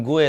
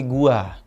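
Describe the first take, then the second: First: "gue" ending in an open e sound; Jakarta pronunciation. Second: "gua" ending in an open a sound; Sundanese pronunciation. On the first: Comedian contrasting Jakarta speech with Sundanese, Jakarta pronunciation. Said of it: "Orang Jakarta yang ngomong gue". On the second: Comedian showing how Sundanese people say it, Sundanese pronunciation. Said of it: "orang Sunda biasanya kalau ngomong". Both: Shown as a demonstration.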